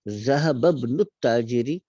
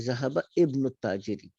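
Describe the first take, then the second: First: The words are joined and the alif is silent. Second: Each word is said separately with the alif sounded. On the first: "जब मिला के पढ़ते हैं" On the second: "ज़हबा को अगर हम अलहदा पढ़ते और इब्न को अलहदा पढ़ते"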